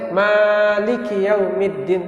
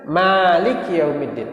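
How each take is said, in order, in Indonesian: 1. Mad-nya dipanjangkan terlalu lama. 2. Mad-nya hanya ditahan sebentar. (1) "Nggak boleh ... itu nggak boleh" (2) "Cukup dua harakat saja. ... Ditekan aja"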